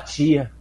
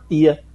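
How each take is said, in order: First: It is said the way Salvador people say it. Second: It is said in the speaker's own Jacobina accent. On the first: "Nunca consegui chamar tia" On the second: "Eu só chamo tia"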